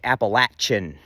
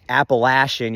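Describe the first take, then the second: First: The middle consonant is a hard ch sound. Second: The middle consonant is a soft sh sound. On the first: The speaker calls it right. "it's pronounced with the hard C H" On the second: The speaker calls it wrong. "You're still getting that S H sound in there"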